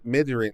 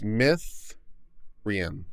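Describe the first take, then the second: First: The middle consonant is a D sound. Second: The middle consonant is a TH sound. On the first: The speaker calls it wrong. "No, wait" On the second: The speaker calls it right. "double D's is pronounced T H"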